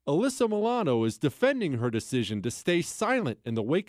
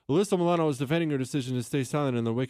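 First: It is read slowly, at a clear pace. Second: It is read quickly, at a rushed pace. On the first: The reader is reading to someone. The speaker calls it right. "If I'm reading it out loud" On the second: The reader is reading for themselves. The speaker calls it wrong. "as if I'm just reading it... that's the pace I'm reading it in my head"

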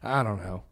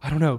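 First: It is said in a relaxed, laid-back way. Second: It is said in a tense, nervous way. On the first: The speaker calls it right. "just be like more laid back" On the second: The speaker calls it wrong. "instead of saying like"

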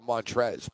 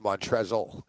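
First: The name ends without an L sound. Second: The name ends with an L sound. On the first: The speaker calls it wrong. "I always called him Montrez" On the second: The speaker calls it right. "but it's Montrezl. There's an L at the end of that"

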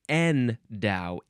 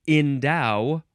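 First: The first syllable sounds like 'en'. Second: The first syllable sounds like 'in'. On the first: "In or en" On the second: "In or en"

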